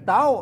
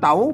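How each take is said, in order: First: The syllable is said on a high tone. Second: The syllable is said on a rising tone. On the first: "ใส่ไม่ตี" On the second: "ใส่ไม่จรวา"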